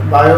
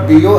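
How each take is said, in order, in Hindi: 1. पहला अक्षर 'bye' की तरह सुनाई देता है। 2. पहला अक्षर 'bee' की तरह सुनाई देता है। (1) "बायो भी चलेगा" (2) "एक्चुअल प्रोनाउंसिएशन तो इसका बीओ है"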